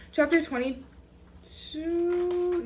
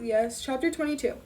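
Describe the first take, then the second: First: Chapter title, put on. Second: Said in the usual way. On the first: Shown as a demonstration.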